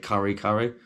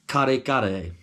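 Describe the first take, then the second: First: It is said in an English accent. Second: It is said without an English accent.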